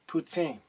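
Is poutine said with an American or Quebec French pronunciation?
Quebec French. It is said with a Quebec French pronunciation. The speaker calls it right. "it's more like poutine"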